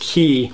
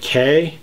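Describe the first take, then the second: First: The vowel sounds like the 'ee' in 'see'. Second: The vowel sounds like the 'ay' in 'day'. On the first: The speaker is a local. The speaker calls it right. "the actual correct pronunciation is Key" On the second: The speaker is a tourist. The speaker calls it wrong. "many people pronounce it K"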